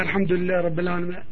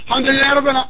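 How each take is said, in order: First: It is recited quietly, just audible to oneself. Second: It is recited loudly, audible to others around. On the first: The reciter does not disturb others nearby. The speaker calls it right. "what you can hear, لِتُسْمِعَ نَفْسِكَ" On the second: The reciter disturbs others nearby. The speaker calls it wrong.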